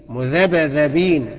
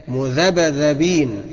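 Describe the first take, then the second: No difference in how they are said.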